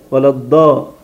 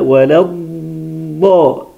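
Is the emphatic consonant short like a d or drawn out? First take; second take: short; drawn out. First: The consonant is short like a heavy d. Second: The consonant is drawn out and prolonged. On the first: The speaker calls it wrong. "كأنها ده المفخمة" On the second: The speaker calls it right. "سامعين الاستطالة دي"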